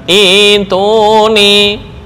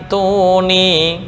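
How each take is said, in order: First: It starts fresh with an opening vowel. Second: It runs on from the word before it. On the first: "ketika was, wakaf di as-samawat" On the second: "jika wasal atau nyambung"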